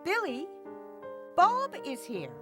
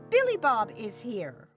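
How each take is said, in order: First: There is a pause right after Billy. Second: It flows without a pause after Billy. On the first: Someone is told that another person is here. "if I place a comma between Billy and Bob" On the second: One person is here. "I'm talking about one person, Billy Bob"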